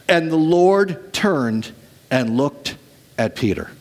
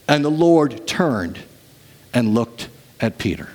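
No difference in how they are said.

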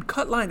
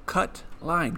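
First: "Cut Line" tossed off higher and faster; quick brisk repeat. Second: "Cut Line" said slowly, weight on "Line"; stress on the correction. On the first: Host repeating the show name, quick and bright. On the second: Host correcting how the show's name is said, slowly. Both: Shown as a demonstration. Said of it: "It's pronounced".

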